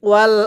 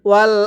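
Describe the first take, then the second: The two takes are said the same way.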